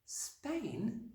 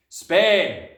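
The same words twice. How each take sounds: First: Put-on small, high, soft child's voice; little girl's hushed, high question; dismayed disbelief. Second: Very loud, blunt announcement; gruff shout, pitched up; curt father. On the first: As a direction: echo it softly in high-pitched shock. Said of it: "Matilda cried out". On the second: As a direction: bellow the one word like an impatient dad. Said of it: "the father said". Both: A narrator's reading.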